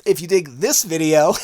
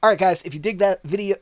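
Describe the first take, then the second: First: Laughing through the retake after a flub. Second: Said in the usual way. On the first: Real, not acted. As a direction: chuckle as you redo the line. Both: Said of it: "bleh, yep".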